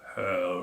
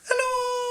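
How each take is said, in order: First: It is said in a very low voice. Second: It is said in a very high voice.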